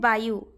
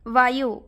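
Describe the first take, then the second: First: The word begins with a b sound. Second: The word begins with a v sound. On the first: This is the Odia pronunciation. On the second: This is the Hindi pronunciation.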